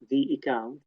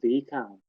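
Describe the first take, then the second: First: A glottal break separates 'the' from 'account'. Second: 'The' runs smoothly into 'account' without a break. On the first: The speaker calls it wrong. "It's not the account" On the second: The speaker calls it right. "So this is again linked"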